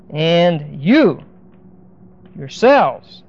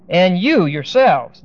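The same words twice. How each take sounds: First: "you" stressed, pause before "yourselves"; emphasis on the subject. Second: Slow, weight on YOU; emphatic quote. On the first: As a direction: hit "you", hold a beat, then "yourselves". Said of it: "with an emphasis on the subject". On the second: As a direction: lean on "you", read it slowly. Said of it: "Now this is very emphatic". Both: Shown as a demonstration.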